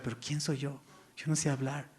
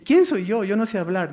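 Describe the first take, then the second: First: Soft, small, self-doubting question; hushed Moses doubting himself; quiet humble objection. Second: Higher and louder, protesting; loud emphatic objection. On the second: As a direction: throw the question out with force. Moses' objection, emphasized retelling. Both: Acted.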